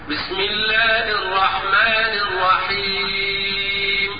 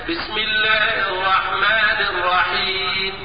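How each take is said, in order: First: The final long vowel is held for four beats. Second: The final long vowel is held for two beats. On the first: "التوسط بمقدار أربع حركات هكذا" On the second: "القصر بمقدار حركتين هكذا"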